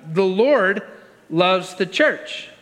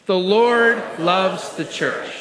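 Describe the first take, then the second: First: Said in the usual way. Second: Slow, deliberate group recitation; confident unison lead. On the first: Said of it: "how about this one?". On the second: Real, not acted. Pastor leading believers to say it with confidence, slow and firm. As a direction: draw it out firmly for the room to follow. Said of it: "say that with me with confidence".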